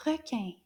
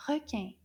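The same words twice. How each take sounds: The two takes are said the same way.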